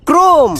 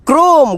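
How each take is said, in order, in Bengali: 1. এটি এক দলে বলা হয়, krome। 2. এটি এক দলে বলা হয়, krome।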